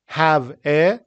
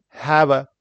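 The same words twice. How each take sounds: First: 'have a' as two separate words, full vowel on 'a'; unlinked 'have a'; careful spelled-out form. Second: 'have a' run together like 'hava'; 'have a' as one word; natural linked pronunciation. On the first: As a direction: say 'have, a' word by word. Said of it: "how we spell it". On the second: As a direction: link 'have' into a short, weak 'a'. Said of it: "how we say it". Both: Shown as a demonstration.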